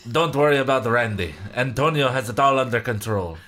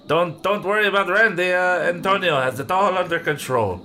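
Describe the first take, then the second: First: The voice is steady and even. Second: The voice trembles and stutters.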